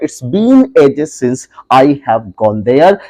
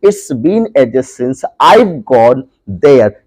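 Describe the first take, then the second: First: 'I have' is said as two full words. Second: 'I have' is shortened into one contracted word. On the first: "जहां पर आई हैव लिखा हुआ है" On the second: "उसे short form में आई बोलेंगे"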